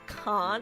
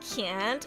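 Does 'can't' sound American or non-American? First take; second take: non-American; American. First: It is said with a non-American vowel. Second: It is said with an American vowel. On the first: The speaker keeps their own way of speaking. The speaker calls it right. "instead of can't" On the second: The speaker has given in to an American accent. The speaker calls it wrong. "the day I start saying can't"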